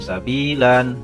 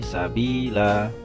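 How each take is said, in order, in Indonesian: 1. Kata ini berakhir dengan bunyi n. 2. Kata ini berakhir dengan vokal a panjang. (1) "bukan sabilan" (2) "tetapi sabila"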